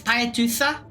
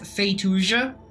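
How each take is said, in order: First: The name is said in a Japanese way. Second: The name is said in an anglicized way. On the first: The speaker calls it right. "is how the Japanese pronounce it" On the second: The speaker calls it wrong. "I mispronounce it as Feituja"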